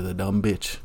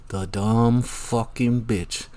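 First: Said in the usual way. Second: "The dumb fucking bitch" dragged out very slowly, each word weighted; slow, deliberate stress on "dumb"; slow emphatic insult. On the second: Real, not acted. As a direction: lean on "dumb", drawn out and heavy. Repeats insult, second slower.

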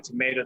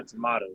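First: Tomato with a long "ay"; tomayto pronunciation. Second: Tomato with an open "ah"; tomahto pronunciation. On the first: Brother shrugging off the debate, tomato with "may". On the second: Brother shrugging off the debate, tomato with "mah". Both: Shown as a demonstration. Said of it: "Doesn't really matter".

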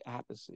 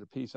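First: [name] said "AP-pih-see"; three syllables in [name], stress on the first; own pronunciation. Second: [name] said "a-PIECE"; two syllables in [name], stress on the last; brother's pronunciation. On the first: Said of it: "I say [name]". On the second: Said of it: "[name] says it [name]". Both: Shown as a demonstration.

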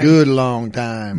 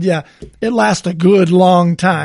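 First: Slow, low drawn-out mountain man; gruff mountain man. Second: Gruff mountain man. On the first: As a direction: drag it out like a gruff old miner. Echoes the slogan in a voice. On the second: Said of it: "he says something to the effect of". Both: Retold or imitated.

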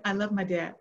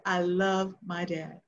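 First: Said in the usual way. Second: LOVE drawn out slowly; slow down and lean on "love"; heartfelt, stretched-out LOVE; stress on LOVE. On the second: Real, not acted. Repeats it slowly for emphasis.

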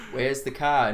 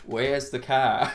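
First: Put-on "Where's the car?" in a broad Australian accent; an Aussie asking "Where's the car?". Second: Slow New Zealand "Where's the car?"; New Zealand accent. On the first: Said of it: "Australians are all like". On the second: Retold or imitated. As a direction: drawl "Where's the car?" like a Kiwi. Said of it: "New Zealand people are more like".

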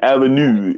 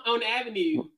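First: Put-on Baltimore accent. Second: Baltimore accent. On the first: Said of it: "You sound like you from, like, London". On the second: Shown as a demonstration. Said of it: "am I hitting that Baltimore accent?".

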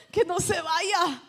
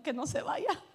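First: Louder, slower mock plea; pleading repeat. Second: Half-laughing mock fret; laughing inner worry. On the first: Church member begging inside that the guest stays, louder slow mock plea. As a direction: stretch out the begging so it sticks. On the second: Church member fretting that the guest will leave, laughing. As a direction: chuckle through the silent plea.

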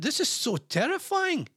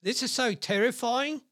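First: Mock dramatic horror. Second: Mock horror again. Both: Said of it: "One user commented".

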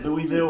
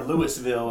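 First: Louisville said as "Louie-ville"; "Louisville" with an EE before the ville; Louisville with silent S. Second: Louisville said as "Lewis-ville"; "Louisville" with an audible S before the ville. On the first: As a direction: drop the S in Louisville, LOO-ee-vill. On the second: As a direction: sound the S in Louisville, LOO-iss-vill. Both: Shown as a demonstration. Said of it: "How do you pronounce the capital".

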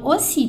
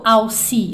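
First: Aussi said OH-SEE, A U as O; correct French. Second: Aussi said ah-oo-SEE, sounding out A and U; wrong spelling-based. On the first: Teacher giving the right aussi after the wrong one. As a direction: say aussi with AU as a single O. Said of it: "eu falo aussi". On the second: Teacher showing the mistaken reading of aussi. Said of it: "eu não falo aussi". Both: Shown as a demonstration.

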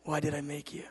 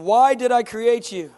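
First: Hushed, near-whispered question; God asking softly. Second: Loud, high and slow; God's booming question. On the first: God pressing his son once more, very quietly. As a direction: drop to a soft, low-key repeat of the question. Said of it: "And then again he says". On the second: God asking his son a question, loud and slow. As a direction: boom the question out, stretched and emphatic. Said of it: "he says". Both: Retold or imitated.

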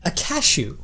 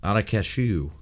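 First: A cashew, with the vowel said the other way. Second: Not a cashew, corrected the usual way. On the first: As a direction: say cashew the way you always do. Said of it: "Say that one more time". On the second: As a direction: say cashew as you would. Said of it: "Is that how you say cashew?". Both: Shown as a demonstration.

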